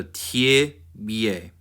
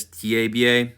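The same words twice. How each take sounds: First: "tie bie" slowly as tyih-BYEH; short ih in "tie", full yeh in "bie"; reduced first vowel. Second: "tie bie" as tyeh-BYEH; unreduced e in both halves of "tie bie"; full vowels. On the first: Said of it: "tie instead of T A". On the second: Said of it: "if you learned it as". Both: Shown as a demonstration.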